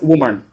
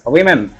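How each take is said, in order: First: The first syllable sounds like 'woo'. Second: The first syllable sounds like 'wim'. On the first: The speaker calls it wrong. "I was talking as woman, but it's wrong" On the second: The speaker calls it right. "We pronounce it as women. W I M I N"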